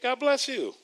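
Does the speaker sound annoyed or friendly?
friendly. The voice sounds warm and friendly. The blessing is sincere. "if I'm not mad at Minister Joe for anything"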